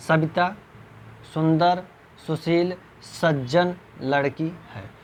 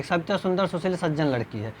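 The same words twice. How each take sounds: First: Savita, सुंदर, सुशील each rising with a pause after; slow, word by word with comma breaks. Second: Said in the usual way. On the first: Shown as a demonstration. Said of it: "अब ऐसे थोड़ी आप पढ़ेंगे". (हर शब्द के बाद ठहराव) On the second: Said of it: "गलत माना जाएगा".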